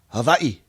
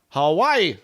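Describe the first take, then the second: First: It is said the local Hawaiian way. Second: It is said the usual mainland English way.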